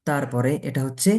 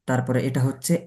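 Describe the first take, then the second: No difference in how they are said.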